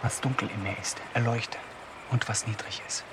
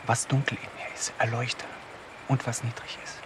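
First: Soft, low whispered plea; a hushed prayer to herself in the dark. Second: Soft, low whispered repeat; the prayer again, even more hushed. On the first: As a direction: breathe the prayer out barely voiced. Whispered prayer alone at night. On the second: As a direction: murmur the same plea again under the breath. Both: Acted.

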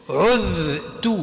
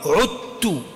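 First: عذت said with a clear dh sound before the ta; original dhal. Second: عدت said with a plain t sound, the dhal merged into the ta; assimilated t. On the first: Teacher showing students the original letter, low and clear. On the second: Teacher showing students the merged sound, low and clear. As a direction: say عدت as it is recited, with t. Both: Shown as a demonstration.

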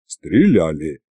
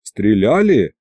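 First: СТРЕЛЯЛИ as a lower, falling answer; casual confirmation. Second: СТРЕЛЯЛИ asked with a pitch peak in mid-word; interested question. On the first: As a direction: answer СТРЕЛЯЛИ offhandedly, pitched down. Dragon confirms, scratching its belly. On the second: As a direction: ask СТРЕЛЯЛИ with mild curiosity. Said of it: "заинтересовался я". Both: A narrator's reading.

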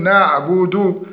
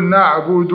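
First: "نعبد" with a short final damma; correct pronunciation. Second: "نعبد" with the final u stretched into a waw; over-lengthened damma. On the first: Teacher shows students the right reading, short final vowel in نعبد. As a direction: end "نعبد" on a brief u, not stretched. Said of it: "فنقول نعبد". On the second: Teacher demonstrates the error, final vowel of نعبد drawn out. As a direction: drag the last vowel of "نعبد" into a long oo. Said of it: "زيادة زمن النطق بالضمة". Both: Shown as a demonstration.

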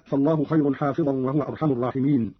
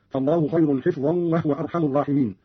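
First: Said in the usual way. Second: "حفظا" as hifzan; kasra, vowelless fa. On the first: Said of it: "قرأ قالون بكسر الحاء". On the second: Shown as a demonstration. Teacher showing Qalun's reading, "حفظا" said hifzan. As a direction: say "حفظا" with short i and closed f. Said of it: "بكسر الحاء وفاء ساكنة هكذا".

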